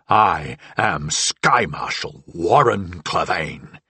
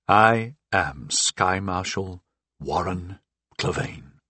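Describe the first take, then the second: First: It is shouted with loud, raging intensity. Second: It is spoken with more force and conviction. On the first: "I raged" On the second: "I said more forcefully"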